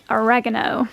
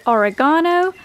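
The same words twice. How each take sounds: First: Oregano stressed on the second syllable, "uh-REG-uh-no"; American pronunciation. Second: Oregano with stressed long AH, "o-ri-GAH-no"; British pronunciation. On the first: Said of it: "my U S audience will say oregano". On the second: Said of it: "Here's a question to my audience". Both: Shown as a demonstration.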